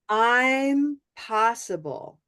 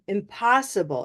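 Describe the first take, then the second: First: The first syllable is long and fully stressed. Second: The first syllable is short, unstressed and reduced. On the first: It means the speaker is possible. "That's how much time" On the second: It means something cannot be done. "So this one has no time"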